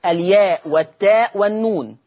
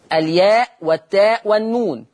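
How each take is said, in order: Both takes have the same delivery.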